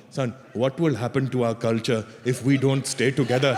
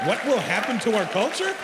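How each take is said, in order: First: Put-on lower, pleading Indian-accented parent; guilt-trip your son in an Indian accent; mock-mournful Indian parent appeal. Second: Higher, mocking repeat of the question; raised-pitch rhetorical challenge; incredulous echo. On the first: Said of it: "this is the bullshit they pull on them". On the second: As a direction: throw the question back in disbelief. Comic throws the parent's question back.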